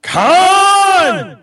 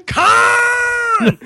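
First: Long loud Khan scream; Khan yell. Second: Long loud anguished Khan scream; Khan yell. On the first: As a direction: bellow the name, high and stretched. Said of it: "Okay, how about this?". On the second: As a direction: yell it like Kirk, stretched out. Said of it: "that's really funny". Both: Pretend.

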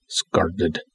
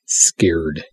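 First: "scarred." said as SCARRED, with the long "ar" vowel of a scar, not the "air" of scared; soft mock sound-out of "scarred."; scarred, misspelled. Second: "Scared." said properly as SKAIRD, with the "air" vowel; softly corrects to "Scared." with the E sound. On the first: Filmmaker teasing a reviewer's typo, saying "scarred." quietly and deliberately. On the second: Filmmaker correcting the reviewer's spelling, saying "Scared." carefully. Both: Shown as a demonstration. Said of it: "There's an E in scared".

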